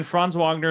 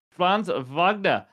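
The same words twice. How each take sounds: First: Said in the usual way. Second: Franz Wagner in a put-on German accent, slow and drawn out. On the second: Host redoes the player's name properly, in a German accent. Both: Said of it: "I didn't do my German accent".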